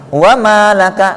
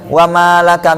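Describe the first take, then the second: First: The 'ma' is pressed with extra stress. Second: The 'ma' is merged smoothly into 'laka'. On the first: It means there is nothing for you. The speaker calls it right. "jadi ditekan maknya itu" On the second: It means and your wealth. The speaker calls it wrong. "malaka itu seakan-akan digabung"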